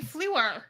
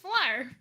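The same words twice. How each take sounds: First: The name is drawn out with extra vowel sounds. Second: The name has a short French vowel sound. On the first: The speaker calls it wrong. "you were saying Fleur. Whatever that is. ... I think you added vowels into it" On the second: The speaker calls it right. "It's French"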